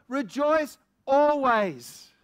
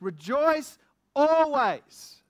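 First: Slow, loud proclamation punching "Rejoice" first; stress on REJOICE. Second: Slow, loud proclamation with "always" drawn out and falling; stress on ALWAYS. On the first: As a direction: hit "Rejoice" hard and let "always" fall. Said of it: "Rejoice when my body feels strong". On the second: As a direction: preach it, leaning hard on "always". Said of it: "One Thessalonians five ... says". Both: Shown as a demonstration.

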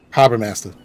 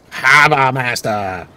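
First: "Harbor Master" quick and natural, the r softened Boston style; believable Boston accent. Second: "Harbor Master" slow, with both r's dropped as hahba mastah, a mocking Boston accent; overdone Boston accent. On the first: Shown as a demonstration. Boston gamer shows the real local Boston accent. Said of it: "more of a Boston accent, a believable one". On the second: Gamer mocks the voice actor's Harbor Master in a hammed-up Boston accent. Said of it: "really lost it on".

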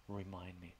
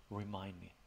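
The two takes are said the same way.

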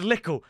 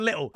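First: Little with a dropped t, li'le; "little" said as li'le with a glottal stop; said wrong. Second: Little with a crisp t; "little" said with a clear t sound; said right. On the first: Correcting himself on how he said little, first try li'le. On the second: Correcting himself on how he said little, now the proper little. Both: Shown as a demonstration. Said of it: "I meant little".

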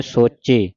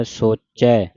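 First: ਸੋਚੇ with a closed "e" ending; single-lan ending. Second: ਸੋਚੈ with an open "ai" ending; double-lavan ending. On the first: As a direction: end ਸੋਚੇ on a tight ay sound. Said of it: "ਸੋਚੇ ਇੱਕ ਲਾਂ ਦੇ ਨਾਲ". (ਸੋਚੇ ਇੱਕ ਲਾਂ ਨਾਲ) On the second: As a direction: end ਸੋਚੈ on a long open ai. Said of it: "ਦਲਾਵਾਂ ਦੇ ਨਾਲ ਪੜ੍ਹਨਾ ਹੈ". (ਸੋਚੈ ਦਲਾਵਾਂ ਨਾਲ) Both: Shown as a demonstration.

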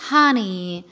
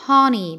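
First: "honey" with open first vowel; low, open "hahny"; American HONEY. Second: "honey" with a slightly rounded O; British HONEY. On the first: Teacher repeating American "honey", open-vowel pronunciation. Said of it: "في الأمريكان أكسنت بتتنطق". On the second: Teacher repeating British "honey", rounded-O pronunciation. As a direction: purse the O in "honey". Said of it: "بيضموا ال O شوية". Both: Shown as a demonstration.

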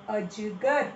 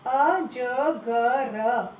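First: Said in the usual way. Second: अजगर stretched into a-ja-ga-raa, each syllable drawn out. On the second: Shown as a demonstration. Teacher sounding out अजगर slowly for the class. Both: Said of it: "सही उच्चारण करो".

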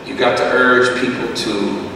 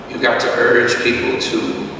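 No difference in how they are said.

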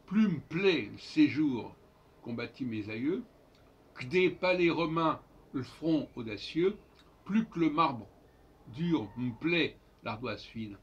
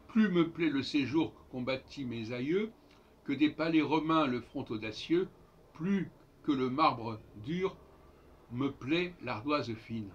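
First: "plus me plaît le séjour" as "plum' plaît l'séjour"; dropped schwas. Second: "me" and "le" sounded as full syllables; "Plus me plaît le séjour" with every e voiced; full schwas. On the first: Teacher showing how it should be said, dropped schwas. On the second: Teacher reading the sonnet the usual way, full schwas. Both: Shown as a demonstration. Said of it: "Il faudrait dire".

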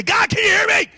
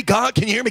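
First: Desperate call. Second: Said in the usual way. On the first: Acted. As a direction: shout up to heaven to be heard. Calling to God, rising.

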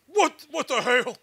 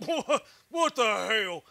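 First: Slow, loud, stretched "What, what the hell?" rising at the end; drawn-out what the hell. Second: Slow "What, what the hell?" with a laugh through it and a falling end. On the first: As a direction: shout it slow like a puzzled Texan. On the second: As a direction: stretch it out while cracking up. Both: Shown as a demonstration. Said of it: "give us an audio command of you saying, 'What the hell,' like that".

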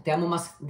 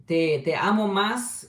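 First: Said in the usual way. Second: "amo" drawn out slowly, rising; slow emphatic. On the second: Shown as a demonstration. Translating his late partner's words for viewers, slow and tender. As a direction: linger on "te amo más" very slowly. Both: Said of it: "cómo sería la traducción".

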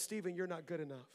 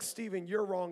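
First: Softer, sinking inner voice; quiet inner voice of doubt; quiet self-criticism. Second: Said in the usual way. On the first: Retold or imitated. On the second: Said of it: "But it wasn't like".

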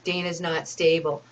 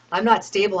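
First: Said in the usual way. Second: "not" punched hard and loud in denial; louder, hitting "not" to reject the claim; indignant denial with "not" stressed. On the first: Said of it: "he said". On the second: Real, not acted.

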